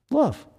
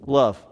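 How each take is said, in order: First: Love said much higher with a falling tune; stress on Love. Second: Said in the usual way. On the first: Shown as a demonstration. Preacher answering his own question, Love high and falling. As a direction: lift Love up high and let it fall. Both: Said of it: "You know what one commandment is?".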